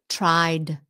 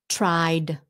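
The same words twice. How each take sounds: No difference in how they are said.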